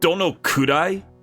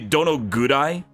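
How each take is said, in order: First: The third syllable begins with a K sound. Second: The third syllable begins with a G sound. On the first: "This is ku" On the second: "I'm just reading it with the Docton"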